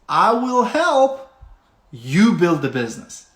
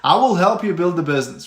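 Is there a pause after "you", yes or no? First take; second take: yes; no. First: There is a pause after "you". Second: It is said without a pause after "you".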